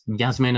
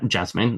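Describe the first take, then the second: First: The name begins with a Y sound. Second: The name begins with a J sound. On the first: "that's Yasmin as well" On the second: "this with a J, that's not pronounced Jasmine"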